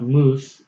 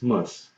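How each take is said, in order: First: The vowel is long, like in 'moose'. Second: The vowel is short, like in 'muss'. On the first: The speaker calls it wrong. "it's not moose" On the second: The speaker calls it right. "it's muss. Same as wuss"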